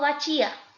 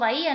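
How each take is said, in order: First: A ch sound is said between the vowels. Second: The vowels meet with no consonant between them. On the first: The speaker calls it wrong. "no digo bachía" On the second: The speaker calls it right. "yo digo bahía"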